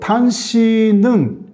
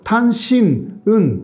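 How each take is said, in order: First: The final n flows into the following vowel. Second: The syllables are split apart with a break. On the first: The speaker calls it right. "그런 식으로 연음이 되잖아요" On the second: The speaker calls it wrong. "일본 사람들은 그거 좀 모르거든요"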